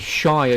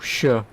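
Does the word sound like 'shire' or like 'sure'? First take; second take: shire; sure. First: The word rhymes with fire. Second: The word sounds like 'sure'. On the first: The speaker calls it right. "you say Shire" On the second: The speaker calls it wrong. "you don't say oh sure"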